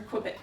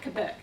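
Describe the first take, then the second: First: Quebec said "kwuh-BEK"; Quebec the English way, as "kwi-BEK"; anglicized Quebec. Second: Quebec said "kuh-BEK", without the W; Quebec corrected to "keh-BEK"; French-style Quebec. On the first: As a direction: say Quebec with a KW sound at the start. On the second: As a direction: say Quebec with a plain K at the start. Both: Real, not acted.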